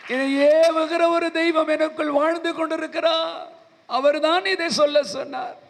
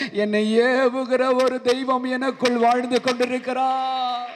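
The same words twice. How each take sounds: First: Much higher, ringing proclamation; fervent preaching. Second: Slow, deliberate with weight on ஏவுகிற; firm declaration. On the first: The preacher repeats it to the weeping man, higher and ringing. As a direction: lift it high and proclaim ஏவுகிற like a sermon climax. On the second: The preacher tells the weeping man, slowly leaning on ஏவுகிற. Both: Shown as a demonstration.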